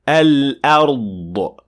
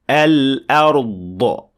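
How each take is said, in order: First: The final consonant ends with a released echo burst. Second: The final consonant ends with a released echo burst.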